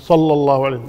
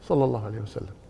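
First: It is said loudly, with a raised voice. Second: It is said quietly, in a low voice. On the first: The speaker calls it wrong. "ما ترفع صوتك" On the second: The speaker calls it right. "تصلي عليه بصوت منخفض"

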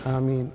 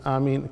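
Both takes have the same delivery.

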